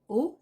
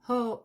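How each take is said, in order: First: The word starts without an h sound. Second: The word starts with an h sound. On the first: The speaker calls it wrong. "ce n'est pas O" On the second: The speaker calls it right. "c'est hope"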